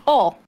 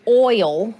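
First: OIL shortened to "ol", no oy glide; Southern short form. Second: OIL with the full oy glide; full standard pronunciation. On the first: Defending the efficient Southern way, OIL reduced to "ol". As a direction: say OIL as one Southern syllable, "ol". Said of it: "when you can just say oil". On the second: Justifying the Southern accent, OIL laboriously pronounced as OY-ul. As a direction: say OIL carefully, OY-ul in two parts. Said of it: "going through all the trouble to say oil". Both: Shown as a demonstration.

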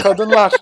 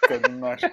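First: Kadınlar called out loud and high; booming announcement. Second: Kadınlar breathed in a secretive whisper. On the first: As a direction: call out kadınlar like a showman. (kadınlar, yüksek sesle ilan) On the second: (kadınlar, fısıltıyla) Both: Pretend. Same word said twice, differently.

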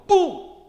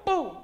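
First: Very high, very loud shout; preacher showing today's umpire call, shouting; modern umpire boom. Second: High, loud shout with the crowd; preacher getting everybody to shout along; congregation boom. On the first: Shown as a demonstration. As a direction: blast it out like a stadium call. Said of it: "Now we go". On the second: Real, not acted. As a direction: lead the room in the shout. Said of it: "Everybody go".

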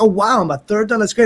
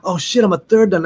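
First: Higher-pitched delighted reaction, retold; lively, pleased exclamation; super happy. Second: Higher-pitched retold sinking realization; mock-dismayed outburst; comic dismay. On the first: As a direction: act out being thrilled at the news. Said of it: "I was super happy". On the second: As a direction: act out suddenly realizing the catch. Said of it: "it was happy and sad at the same time".

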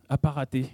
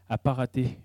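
Both takes have the same delivery.

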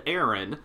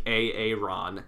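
First: Said in the usual way. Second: "A A Ron" as ay-ay-RON; spelled-out Aaron. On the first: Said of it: "even if it's spelled Aaron". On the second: Shown as a demonstration. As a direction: say "A A Ron" in separate syllables. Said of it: "intention is for that child to be called".

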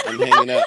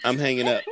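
First: Squeaky high laughing repeat; laughing squeal. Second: Said in the usual way. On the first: Shown as a demonstration. Host laughing while threatening to leave, squeaky high.

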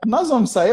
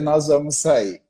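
First: Higher, surprised question; surprised wife. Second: Lower, settled statement; firm confirmation. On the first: Wife asks in surprise whether they are really going out, higher voice. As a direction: she can't believe they're going out. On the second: Husband confirms to his wife that they are going out, low and firm. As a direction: close the question, it's decided. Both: Retold or imitated.

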